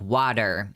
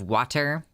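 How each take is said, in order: First: The T sound is dropped or softened. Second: The T sound is clearly pronounced. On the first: "We just don't pronounce our T's very much where I'm from" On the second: "instead of"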